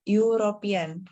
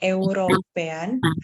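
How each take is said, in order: First: The word begins with a 'y' consonant sound. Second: The word begins with a plain vowel sound. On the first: The speaker calls it right. "kalau kita ngomong itu terdengarnya European. Kayak kita pakai "iye"" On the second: The speaker calls it wrong. "bukan European"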